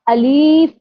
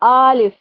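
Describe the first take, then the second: First: The second vowel is stretched long. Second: The first vowel is stretched long. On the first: "लाम के साथ या को भी ऐड कर देते हैं, तो वो खींच के पढ़ा जाता है" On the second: "आ को खींच देते हैं, आलिफ करते हैं"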